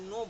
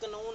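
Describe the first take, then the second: First: It starts directly with the n sound. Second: A k sound is pronounced before the n. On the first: The speaker calls it right. "हम इसे नो बोलते हैं" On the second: The speaker calls it wrong. "हम इसे कनो नहीं बोलते"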